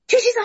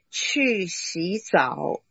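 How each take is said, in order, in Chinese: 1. 说得不耐烦，像是在发火。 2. 说得平静而坚定，很有控制力。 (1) "你已经被惹起来了，只是在发泄" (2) "这样比较有权柄"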